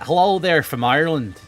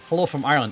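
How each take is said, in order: First: It is said in a put-on Irish accent. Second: It is said in his normal accent.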